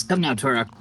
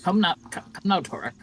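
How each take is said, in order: First: Put-on light character accent for Albert; Albert's accent. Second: Said in the usual way. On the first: Game master as Albert urging Torok along, in a slight put-on accent. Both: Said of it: "sorry, I forgot Albert's accent".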